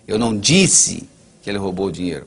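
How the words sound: The stress is on "disse".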